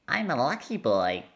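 It is said in a high-pitched child's voice.

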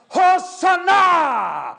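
It is shouted with wild excitement.

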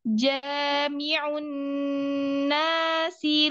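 The pitch rises on the long vowel. The speaker calls it wrong. "Jadi bukan jami'un nasi liyaumi gitu"

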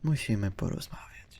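It is said in a soft, gentle tone. The listener is being addressed like a child. The speaker calls it wrong. "a nie takie musimy porozmawiać. Co on kurwa, do dziecka mówi?"

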